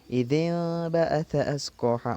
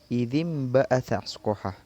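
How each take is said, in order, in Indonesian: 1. Bunyi n sebelum b tetap n biasa. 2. Bunyi n sebelum b berubah menjadi m sengau. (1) "tatkala kita salah membaca" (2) "yang betul bagaimana? ... kita ubah menjadi uh, hukum merubah menjadi suara mim"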